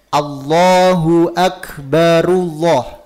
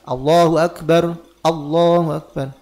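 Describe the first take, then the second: First: The phrases run together without a pause. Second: A pause separates the two phrases. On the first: The speaker calls it right. "ketika menyambung" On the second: The speaker calls it wrong. "Jangan dipotong ya"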